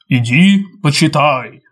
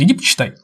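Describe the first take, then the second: First: It is said in a weighty, suggestive voice. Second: It is said in an ordinary everyday voice. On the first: It is a hypnotic suggestion. "внушение – это, вот знаешь, это иди почитай" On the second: It is simple advice. "совет – это просто иди почитай"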